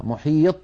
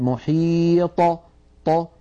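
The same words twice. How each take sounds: First: "محيط" ending on a stopped, unreleased ط; wrong, no qalqalah. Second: "محيط" with long ī, then ط bounced open; correct qalqalah. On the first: Teacher repeating the error for students, "محيط" without bounce. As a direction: close off the ط in "محيط" with no echo. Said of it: "ولا نقول". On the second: Teacher correcting the mistake, "محيط" with bouncing final ط. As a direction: draw out "محيط" and release the ط with an echo. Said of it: "بل نقول". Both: Shown as a demonstration.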